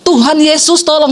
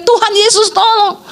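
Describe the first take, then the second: First: Said in the usual way. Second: Mild imitated yell; retold cry for help. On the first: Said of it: "Saya cuma dengar suami saya bilang". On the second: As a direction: imitate a drawn-out plea for help, pitched up. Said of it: "Makanya dia teriak".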